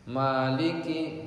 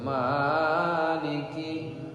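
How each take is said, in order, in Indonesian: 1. Vokalnya hanya ditahan dua ketukan. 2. Vokalnya dipanjangkan terlalu lama. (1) "Maliki dua harakat saja" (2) "enggak boleh maliki panjangan"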